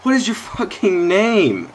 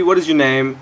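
First: Slow, high, emphatic "What is your fucking name?" hammering "what"; real exasperated yell; exasperated demand. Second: Raised, pointed "what is your name?" with weight on "what"; irritated call-out; annoyed demand. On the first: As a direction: drag it out in disbelief. Demanding player's name, escalated take. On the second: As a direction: snap the question at the player. Demanding player's name, first take. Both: Real, not acted.

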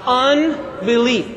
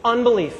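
First: Unbelief stretched out syllable by syllable; very slow, deliberate Unbelief; slow for unison. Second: Said in the usual way. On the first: Shown as a demonstration. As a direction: draw out Unbelief so a crowd can join. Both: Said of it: "Let's all say that together".

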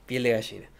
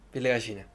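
The two takes are said the same way.

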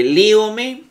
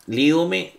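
First: Líome said high and slow, stress on lí; stressed first syllable. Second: Said in the usual way. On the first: Shown as a demonstration. Teacher showing Greek students where líome is stressed. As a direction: draw out líome, lifting the lí. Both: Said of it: "el acento siempre va en la tercera".

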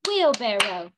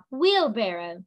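First: "Wheelbarrow" in three even beats: wheel-bar-row; clapped syllables. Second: Said in the usual way. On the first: Shown as a demonstration. Teacher clapping with the class, "Wheelbarrow" syllable by syllable. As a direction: punch each syllable of "Wheelbarrow" with a clap. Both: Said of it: "We're gonna clap it".

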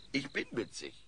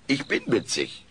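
First: Much softer, muttered to himself; murmuring. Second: Said in the usual way. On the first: Acted. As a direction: mumble it as you doze off. (vor sich hin murmeln) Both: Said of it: "murmelt Alf diese Worte vor sich hin".

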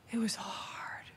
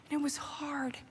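First: Whispered. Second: Said in the usual way. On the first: Real, not acted. Repeats the line, hushed.

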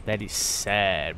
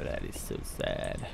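First: Said in the usual way. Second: Hushed, slow mock sorrow; whispered sad. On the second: Real, not acted. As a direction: breathe it out sadly. Repeats sad quietly.

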